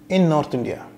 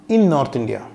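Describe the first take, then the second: Both takes have the same delivery.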